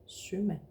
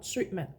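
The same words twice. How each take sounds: First: The first vowel flows on without a glottal catch. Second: The first vowel is cut by a glottal catch. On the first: The speaker calls it right. "but sømand" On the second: The speaker calls it wrong. "not sømand"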